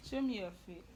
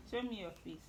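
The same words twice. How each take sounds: The two takes are said the same way.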